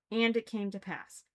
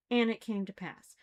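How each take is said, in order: Both takes have the same delivery.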